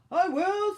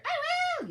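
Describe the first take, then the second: First: Loud, high, drawn-out volunteering; eager reindeer. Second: Very high, loud squealed yell; yelling penguin. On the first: Reindeer volunteering to open presents, loud and eager. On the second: Penguin clamouring to open presents, high yell. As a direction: yell it at the top of your range. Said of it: "yelled the penguin". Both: A narrator's reading.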